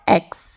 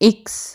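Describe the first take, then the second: First: The letter name begins with an 'e' vowel. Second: The letter name begins with an 'i' vowel. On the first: The speaker calls it wrong. "Not एक्स" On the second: The speaker calls it right. "इक्स not एक्स"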